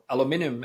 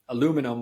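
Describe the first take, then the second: First: It is said the British way. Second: It is said the American way.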